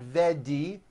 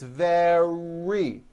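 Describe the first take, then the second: First: The middle consonant sounds like a D. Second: The middle consonant is a strong R. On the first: The speaker calls it wrong. "It's not a D sound. The word is not vedi" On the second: The speaker calls it right. "it's very"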